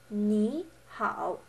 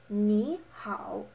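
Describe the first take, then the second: No difference in how they are said.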